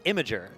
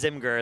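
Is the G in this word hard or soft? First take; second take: soft; hard. First: The G is said soft, like j. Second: The G is said hard, like in go. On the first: This is the intended pronunciation. "like the G is supposed to be soft" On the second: This is how the speaker always read it. "I read it as Imgur as well"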